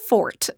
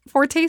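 First: The word is said with one syllable. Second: The word is said with two syllables. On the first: "it's actually fort" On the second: "Forte sounds way better"

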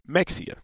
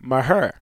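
First: A 'ks' sound, and the name ends in 'ee-ah'. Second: An h sound, and the name ends in 'er'. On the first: The speaker is from the north. "people from the north, they say Mexia" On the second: The speaker is from the local area. "if you're from the area, you say Maher"

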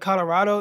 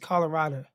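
First: The word ends with an 'oh' sound. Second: The word ends with an 'uh' sound. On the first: This is the usual pronunciation. "instead of Colorado" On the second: This is how the locals say it. "they end it with an A"

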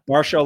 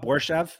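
First: The name rhymes with Darshow. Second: The name does not rhyme with Darshow. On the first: This is how the commentators said the name. The speaker calls it wrong. "like B-A-R-S-H-O-W. ... like Darshow" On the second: This is how others usually say the name. The speaker calls it right. "Is it not Borshev?"

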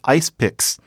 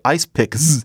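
First: The plural ending is a hissing s sound. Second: The plural ending is a buzzing z sound. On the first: The speaker calls it right. "It's ice picks" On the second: The speaker calls it wrong. "You wouldn't say ice picks"

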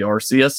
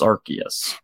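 First: The first syllable sounds like 'arse'. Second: The first syllable sounds like 'ark'. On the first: This was the original pronunciation. "It used to be Arceus" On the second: This is the current official pronunciation. "now it is Arceus"

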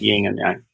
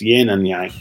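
First: The first word ends with an ng sound. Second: The first word ends with a plain n sound. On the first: The speaker calls it wrong. "not yin and yang" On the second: The speaker calls it right. "it's yin and yang ... There's no G on the first one there"

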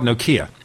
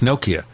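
First: The stress is on the second syllable. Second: The stress is on the first syllable. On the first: The speaker calls it wrong. "I used to call it Nokia" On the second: The speaker calls it right. "with the emphasis on the first syllable"

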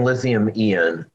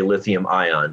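First: The word ion has a Japanese-style pronunciation. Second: The word ion has a North American pronunciation. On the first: "you're saying lithium-ion" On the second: "all of my Western or my North American engineers all say lithium-ion"

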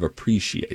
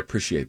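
First: The middle syllable is not said as 'prish'. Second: The middle syllable is said as 'prish'. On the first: "instead of appreciate" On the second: "Prish, a prish"

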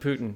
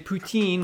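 First: The name is said the American way. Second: The name is said the French way. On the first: "we're going to use the American pronunciation of Putin" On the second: "which is what the French say"

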